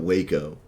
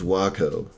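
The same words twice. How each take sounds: First: It is pronounced like the Texas town name. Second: It is pronounced unlike the Texas town name. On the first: The speaker calls it wrong. "I just know it's not Waco. It's not like that town in Texas" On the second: The speaker calls it right. "I think it's Waco"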